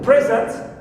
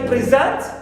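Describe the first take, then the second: First: The stress is on the first syllable. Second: The stress is on the second syllable. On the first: It is used as a noun. "it's a noun" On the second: It is used as a verb. "here it becomes verb"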